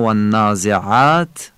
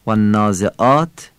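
First: "والنازعات" with smooth pharyngeal ayn, long vowel; soft thick ayn. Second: "والنازعات" as "wannaaze'aat", plain catch; hamza. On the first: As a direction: say والنازعات with throat-squeezed ayn before "aat". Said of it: "این عینه". («والنازعات» با عینِ نرم و غلیظ) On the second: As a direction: say والنازعات with a glottal stop before "aat". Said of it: "این همزه است". («والنازعات» با همزه) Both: Shown as a demonstration.

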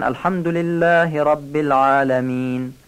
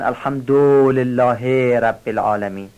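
First: الحمدلله with a short quick "du", long only on "llah"; no stretch after the dal in الحمدلله; correct short damma. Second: الحمدلله with a long dragged "dooo" and "heee"; wrongly stretched vowels. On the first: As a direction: recite الحمدلله رب العالمین keeping the "du" short. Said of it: "همه میگن". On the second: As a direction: drag the short vowels of الحمدلله before رب العالمین. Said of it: "کشش ضمهٔ داله". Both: Shown as a demonstration.

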